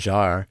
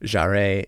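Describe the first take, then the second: First: The name ends without any extra vowel sound. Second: The name ends with an extra vowel sound. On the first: The speaker calls it right. "There's no A at the end" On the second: The speaker calls it wrong. "every time I said Jarre"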